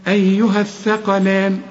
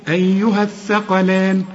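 Both takes have the same delivery.

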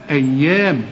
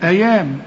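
First: The y sound in the middle is held long. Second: The y sound in the middle is short. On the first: The letter carries a doubling mark. "بحققه أيام" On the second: The letter has no doubling mark. "لو ما فيش الشدة أيام"

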